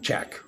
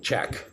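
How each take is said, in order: Both takes have the same delivery.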